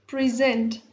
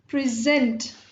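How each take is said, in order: First: The stress is on the second syllable. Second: The stress is on the second syllable.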